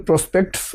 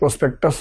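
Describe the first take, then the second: First: It is said with no vowel before the final s. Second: It is said with an extra vowel before the final s. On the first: The speaker calls it right. "एक तो प्रोस्पेक्ट्स बोलना था" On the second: The speaker calls it wrong. "प्रोस्पेक्टस आपने बोला था"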